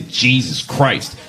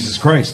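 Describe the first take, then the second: First: It is said with an exasperated, irritated attitude. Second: It is said in a reverent, neutral way.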